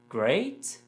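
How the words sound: It sounds like a doubtful question. The speaker doubts it is really great. "it sounds like I'm asking a question maybe"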